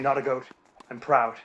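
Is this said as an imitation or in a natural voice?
natural. It is said in the speaker's ordinary voice. "you can say"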